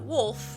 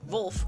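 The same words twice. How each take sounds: First: The name begins with a W sound. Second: The name begins with a V sound. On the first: The speaker calls it wrong. "not Wolf with a W" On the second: The speaker calls it right. "Wolf with a V"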